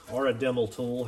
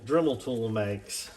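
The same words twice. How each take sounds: First: Dremel said as Dremmel, short e in the first syllable; Dremmel pronunciation. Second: Dremel said as Drimmel, short i in the first syllable; casual Drimmel for Dremel; Drimmel pronunciation. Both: Shown as a demonstration. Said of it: "however you want to say it".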